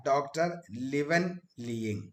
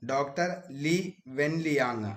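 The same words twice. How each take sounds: First: ലിവൻ ലിയിങ് with "Liwen" run together, ending "-ying"; ലിയിങ് ending in "-ying" instead of "-yang"; first-try pronunciation. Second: ലീ വെൻ ലിയാങ് in separate words, long "Lee", final "-yang"; ലിയാങ് ending in open "-yaang", after a long ലീ; corrected pronunciation. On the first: Real, not acted. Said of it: "ശരിക്കും അതിന്റെ pronunciation". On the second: Shown as a demonstration. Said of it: "അങ്ങനെയാണ് ട്ടോ ശരിക്കും അതിന്റെ pronunciation".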